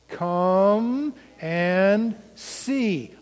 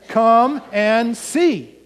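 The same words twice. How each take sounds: First: The phrase is said at the slowest pace. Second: The phrase is said at the fastest pace. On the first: "Say it with me" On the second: "A little faster"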